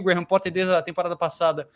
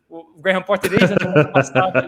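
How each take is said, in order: First: It is said fast. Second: It is said slowly.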